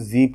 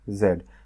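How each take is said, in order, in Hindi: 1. यह अक्षर ज़ी बोला जाता है। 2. यह अक्षर ज़ेड बोला जाता है। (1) "अमेरिकन इंग्लिश में इसको जी पढ़ते हैं" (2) "ब्रिटिश इंग्लिश में इसको क्या पढ़ते हैं?"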